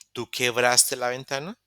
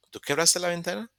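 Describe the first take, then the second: First: Said in the usual way. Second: "¿Tú quebraste la ventana?" pitched higher, with a clear rise at the end; rising question tune. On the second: Shown as a demonstration. Teacher repeats the question with a marked high rising tune. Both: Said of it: "y quedaría".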